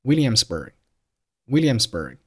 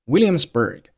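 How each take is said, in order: First: "Williamsburg" with the final g swallowed; unreleased g. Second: Said in the usual way. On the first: Shown as a demonstration. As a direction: stop on the g of "Williamsburg" without sound. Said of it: "但是把声音给吞掉". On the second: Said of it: "结尾的爆破音g".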